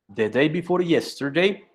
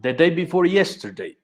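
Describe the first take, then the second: First: Said in the usual way. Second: "The day before yesterday" said again clearly for the student; each word of "The day before yesterday" spelled out deliberately; repeated on request. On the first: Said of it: "¿Me, me puede repetir?". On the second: Shown as a demonstration. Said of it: "¿Cómo, cómo, profe? ¿Me puede repetir?".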